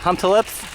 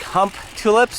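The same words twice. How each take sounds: First: The name is said smooth, with flowing parts. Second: The name is said choppy, with separated parts.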